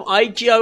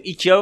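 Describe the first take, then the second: First: آیکیا said the English way as eye-kee-ya; آیکیا pronounced eye-kee-ya, higher and a bit louder; English-style Ikea. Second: ایکیا said Persian-style as ee-kee-ya; ایکیا pronounced ee-kee-ya the way Iranians say it; Persianized Ikea. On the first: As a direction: stretch the first vowel of آیکیا into eye. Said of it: "یا با لهجه اصلی". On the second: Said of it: "یا باید انگلیسی فارسی شده صحبت کنیم". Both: Shown as a demonstration.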